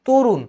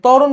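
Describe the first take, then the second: First: The first vowel is a closed 'o' sound. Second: The first vowel is an open 'aw' sound. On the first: "কিন্তু বলি তরুণ" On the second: "আমি তরুণ বললাম"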